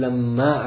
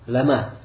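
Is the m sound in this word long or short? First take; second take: long; short. First: The m sound is held long, doubled. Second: The m sound is short, not doubled. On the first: This is the usual reading of the verse. "То есть мы как читаем?" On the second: This is a second accepted reading of the verse. "То есть без удвоения буквы «мим»"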